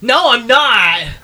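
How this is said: The line is said in a defensive tone. The speaker calls it right. "My voice sounded defensive"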